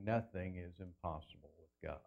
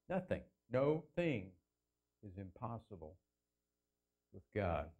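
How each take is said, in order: First: Low, soft recital of the verse; hushed verse quote. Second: "No thing" split in two, with long pauses; broken-up emphatic repeat. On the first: Preacher quoting the words spoken to Mary, hushed. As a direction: say it low and softly, in one go. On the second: Preacher driving the verse home, word by word with pauses. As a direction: set "No thing" apart, then drop soft for "is impossible". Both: Shown as a demonstration.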